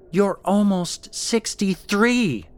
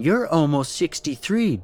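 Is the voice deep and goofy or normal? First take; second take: normal; deep. First: It is said in a normal speaking voice. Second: It is mumbled in a deep, goofy voice.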